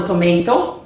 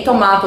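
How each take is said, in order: First: "tomato" as to-MAY-to; American-style "tomato", middle like "may"; second pronunciation variant. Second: "tomato" as to-MAH-to; British-style middle A in "tomato"; first pronunciation variant. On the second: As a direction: say "tomato" with an open AH. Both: Shown as a demonstration. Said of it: "tem essas duas pronúncias".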